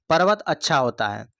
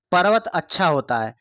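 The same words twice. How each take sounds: The two takes are said the same way.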